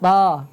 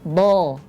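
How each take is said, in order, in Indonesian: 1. Bunyinya tipis, pangkal lidah diturunkan. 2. Bunyinya tebal, pangkal lidah diangkat. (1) "suaranya jadi begini. ... tipis ya" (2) "Suaranya tebal"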